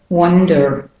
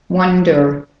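No difference in how they are said.

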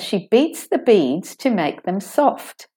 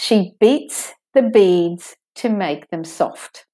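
First: The sentence is spoken at a faster pace. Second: The sentence is spoken at a normal pace.

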